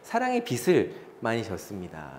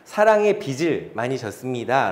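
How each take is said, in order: First: The consonant linking 빚을 sounds like s. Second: The consonant linking 빚을 sounds like j. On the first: The speaker calls it wrong. "이렇게 말하시는 분들이 의외로 많습니다" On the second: The speaker calls it right. "라고 말해야 되는데"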